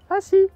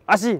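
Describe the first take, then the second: First: It is said in a warm, cheerful tone. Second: It is said in an irritated, harsh tone. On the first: Everything is fine and relaxed. The speaker calls it right. "il y a une bonne vibe" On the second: The speaker is getting annoyed. The speaker calls it wrong. "il est en train de s'énerver"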